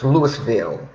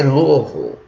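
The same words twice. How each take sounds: First: Louisville said as written, LOO-iss-vill; spelling pronunciation. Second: Louisville said LOO-uh-vul, syllables run together; local pronunciation. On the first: Explaining the written form of the city's name, Louisville as Lewis-ville. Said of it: "it's written to be pronounced Louisville". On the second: Former resident showing how locals say it, Louisville as LOO-uh-vul. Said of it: "We say Louisville". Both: Shown as a demonstration.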